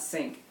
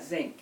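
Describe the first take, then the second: First: The word begins with a hissing s sound. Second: The word begins with a buzzing z sound. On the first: This is the usual way of saying it. "not sink" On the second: This is how the grandmother said it. "My grandmother never lost her southern accent"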